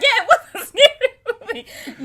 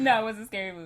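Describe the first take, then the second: First: Very high, loud, through laughter; laughing mock answer. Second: Said in the usual way. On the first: Replaying her answer to the movie guess, loudly laughing. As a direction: burst out laughing as you answer. Laughing re-enactment of misheard question.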